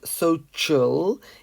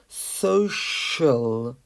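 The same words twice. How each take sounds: First: The middle consonant is a ch sound. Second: The middle consonant is not a ch sound. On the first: The speaker calls it wrong. "Many people pronounce this C as a, a ch sound, but it's not social" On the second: The speaker calls it right. "it's social"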